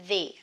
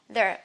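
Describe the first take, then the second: First: The vowel is long and clear, like 'thee'. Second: The vowel is short and weak, like 'thuh'. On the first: The next word starts with a vowel. "a word beginning by a vowel letter... so we say the" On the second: The next word starts with a consonant. "After this one is a word beginning with a consonant letter. We have to pronounce the the"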